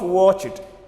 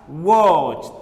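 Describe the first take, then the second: First: The ending is not a plain T sound. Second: The ending is pronounced as a T sound. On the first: The speaker calls it wrong. "not watch it" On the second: The speaker calls it right. "It should be pronounced as watched"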